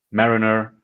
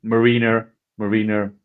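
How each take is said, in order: First: Mariner as MARE-in-er; alternative pronunciation. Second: Mariner as muh-REE-ner; trying a pronunciation. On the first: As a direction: say Mariner with stress on the first syllable. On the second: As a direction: say Mariner with a long ee in the middle. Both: Shown as a demonstration. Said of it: "I don't know".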